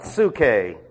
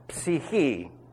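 First: The vowel after ps sounds like oo. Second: The vowel after ps sounds like ee. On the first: The speaker calls it wrong. "not psuche" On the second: The speaker calls it right. "which is the word psyche"

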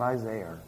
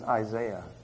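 First: The name ends with an added r sound. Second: The name ends without an added r sound. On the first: The speaker calls it wrong. "not Isaiah" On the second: The speaker calls it right. "man's name is Isaiah"

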